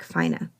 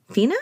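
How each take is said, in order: First: Fina said with a long I, FY-nuh; alternative pronunciation. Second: Fina said as FEE-nuh, rising; questioning pronunciation. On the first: Narrator unsure of pianist's surname, [name] as FY-nuh. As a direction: pronounce Fina to rhyme with China. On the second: Narrator second-guessing pianist's surname, [name] as questioning FEE-nuh. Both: Real, not acted. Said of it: "I don't know how to pronounce".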